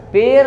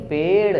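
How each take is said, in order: First: पेड़ wrongly said as "per", high; tapped र replacing ड़ in पेड़; mispronounced with र. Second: पेड़ with a flicked final ड़; half-strength ड ending पेड़; retroflex flap ड़. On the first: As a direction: say पेड़ with a plain final r. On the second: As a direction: flick the tongue to close पेड़. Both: Shown as a demonstration. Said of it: "पेड़ नहीं".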